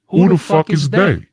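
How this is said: It is said in his put-on show voice.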